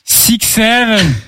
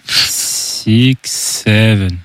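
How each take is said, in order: First: It is said at a normal, quicker pace. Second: It is said a little more slowly.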